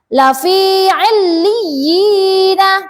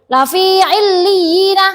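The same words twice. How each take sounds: First: The vowel is drawn out for too long. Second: The vowel is cut off too briefly. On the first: "tidak boleh lebih panjang dari dua harokat" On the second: "Atau pendek nggak boleh"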